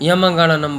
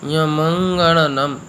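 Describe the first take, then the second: First: The syllables are run together quickly. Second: Each syllable is said slowly and separately. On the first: The speaker calls it wrong. "यहाँ पर भी लोग यमंगणनम बोल देते हैं। यमंगणनम नहीं है" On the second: The speaker calls it right. "मैंने बड़े धीरे से"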